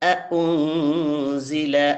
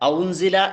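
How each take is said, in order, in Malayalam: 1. രണ്ട് ഹംസ ശബ്ദങ്ങളും വ്യക്തമായും വെവ്വേറെയായും പറയുന്നു. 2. ആദ്യത്തെ രണ്ട് സ്വരങ്ങളും ഒന്നായി ലയിക്കുന്നു. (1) "രണ്ട് ഹംസയും നന്നായിട്ട് തന്നെ നമ്മൾ പറയണം" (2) "എന്ന് വായിക്കരുത്"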